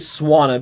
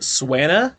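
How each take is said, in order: First: The first syllable sounds like the word swan. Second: The first syllable does not sound like swan. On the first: The speaker calls it right. "it's really Swanna because it's a swan" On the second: The speaker calls it wrong. "I threw you guys by pronouncing it Swanna"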